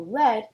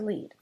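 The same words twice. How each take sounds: First: The vowel is a short 'e' sound. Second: The vowel is a long 'ee' sound. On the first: It is a noun meaning a type of metal. "E A makes the lowercase e sound, e, instead of the uppercase e sound" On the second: It is a verb meaning to guide. "the first pronunciation"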